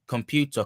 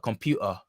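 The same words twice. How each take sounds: First: The t is pronounced as a full consonant. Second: The t is replaced by a glottal stop. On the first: "or um computer" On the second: "That's a glottal stop"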